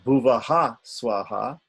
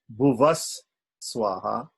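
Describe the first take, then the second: First: The first word ends in a breathy h sound. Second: The first word ends in an s sound.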